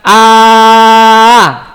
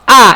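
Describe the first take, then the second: First: The vowel is drawn out and long. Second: The vowel is said quickly and short.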